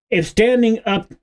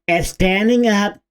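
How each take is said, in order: First: It is read in the speaker's ordinary voice. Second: It is read in an exaggerated put-on voice.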